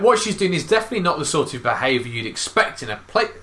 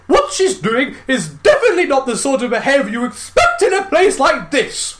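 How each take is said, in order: First: It is read in his normal accent. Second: It is read in a posh accent.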